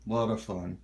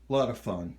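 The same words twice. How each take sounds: The two takes are said the same way.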